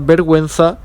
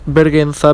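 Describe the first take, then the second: First: A 'w' sound is heard after the g. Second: No 'w' sound is heard after the g. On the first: The speaker calls it right. "we know it because of the two points" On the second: The speaker calls it wrong. "not vergüenza"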